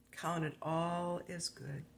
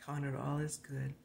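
First: "Count it all as good" drawn out slowly, each word weighed; slow emphatic repeat. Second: Said in the usual way. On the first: Shown as a demonstration.

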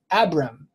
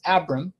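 First: Abram drawn out as ab-REM; slow Abram, short A, clearer ending; changed pronunciation of Abram. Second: Abram with a short A, AB-rum; own pronunciation of Abram. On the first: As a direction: say Abram slowly, with a fuller second vowel. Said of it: "his name was changed". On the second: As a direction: say Abram as AB-rum, weak second vowel. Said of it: "I pronounce the original as". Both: Shown as a demonstration.

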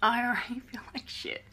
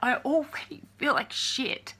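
First: Tearful, breaking laugh; a sob turning into a laugh; crying. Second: Choked up, near tears; breaking down; crying. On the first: Repeating to viewers she feels bad, tearful. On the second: Telling the trolls she already feels bad, crying. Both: Real, not acted. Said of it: "Now I'm crying".

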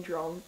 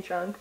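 First: Put-on "drunk" with an O vowel, "dronk"; low, soft "drunk" rounded to "dronk". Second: Said in the usual way. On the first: Shown as a demonstration. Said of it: "but I'm saying drunk". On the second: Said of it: "It sounds like I'm saying drunk".

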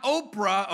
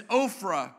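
First: "Oprah" said with a hard p sound; "Oprah", p in the middle. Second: "Ophrah" said with an f sound in the middle; "Ophrah", ph spoken as f. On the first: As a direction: say "Oprah" with a p, like the famous name. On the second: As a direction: say "Ophrah" with f, not p. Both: Shown as a demonstration. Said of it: "This is not Oprah".

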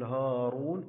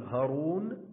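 First: هارون with a long, held "haa"; long alif, right way. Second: هارون with a short "ha", no held alif; short vowel, wrong way. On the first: Teacher correcting the short reading, هارون with its alif drawn out. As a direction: stretch the first vowel, haaa-roon, in هارون. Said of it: "ولكن نقول هارون". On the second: Teacher showing what not to say, هارون with the alif left short. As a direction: clip the first vowel of هارون to ha-roon. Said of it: "لا نقول هارون ولكن نقول هارون". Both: Shown as a demonstration.

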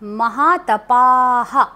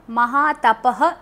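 First: महातपाः slowly, with a long aa and a breathy echo haa at the end; long aa before visarga. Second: महातपः with a short clipped final visarga; wrong short ending. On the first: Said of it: "आ की मात्रा होती है". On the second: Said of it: "नहीं बोलेंगे". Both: Shown as a demonstration.

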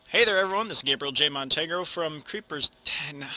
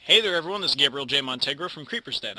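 First: Intro retake. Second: Upbeat channel intro; intro take. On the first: Youtuber retaking his intro, upbeat host voice. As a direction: greet the viewers like a host again. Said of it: "Why do I keep doing that?". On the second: Youtuber recording his intro to viewers, upbeat. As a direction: greet the viewers like a host. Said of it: "that sounds so stupid". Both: Shown as a demonstration.

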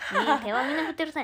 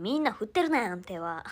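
First: Louder and faster, pressing the point; emphatic fast. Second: Said in the usual way. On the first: Real, not acted. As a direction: insist quickly and loudly. もう一度強く言い直す. (勢いよく強調して)

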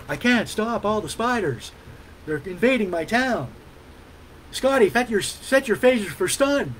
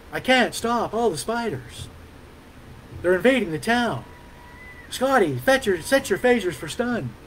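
First: A hint of Shatner's pauses, a touch softer; William Shatner as Texan Kirk. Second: Shatner-style halting pauses, lightly done; William Shatner as Texan Kirk. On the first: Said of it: "William Shatner impersonation". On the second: Retold or imitated. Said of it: "I know that sucked".

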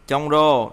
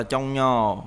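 First: Trong rô said with r after the ng; as-spelled reading. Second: Trong nhò said with ny after the ng, drawn out slowly; assimilated reading. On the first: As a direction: keep the r in trong rô. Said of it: "Trong rô đọc là trong nhò". (đọc trong rô giữ âm r) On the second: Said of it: "đọc là trong nhò". (đọc trong nhò, r thành "nh") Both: Shown as a demonstration.

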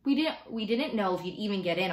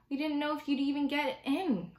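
First: Mother's explanation, only slightly raised pitch. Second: Put-on much higher-pitched boy's reply; child's voice. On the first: Mom explaining secret to son, measured motherly voice. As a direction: explain it as the mother, in a more grounded voice. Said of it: "answered Mom". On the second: Boy in talk about getting into school, child's voice. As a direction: answer high, in the young boy's voice. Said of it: "Augie answered". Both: A narrator's reading.

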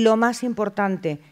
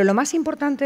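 First: Lo más importante slowed, with weight on lo; stressed lo más importante. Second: Said in the usual way. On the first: Shown as a demonstration. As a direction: lean on lo más importante, slow and falling. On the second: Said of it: "lo más importante del teléfono".

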